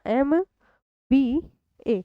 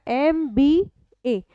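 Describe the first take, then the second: First: एम, बी, ए spelled out as separate letters with pauses. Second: Said in the usual way. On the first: Shown as a demonstration. Teacher spelling the acronym for students, slowly letter by letter. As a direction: spell एम बी ए one letter at a time. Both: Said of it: "एक एक करके बोलोगे ना".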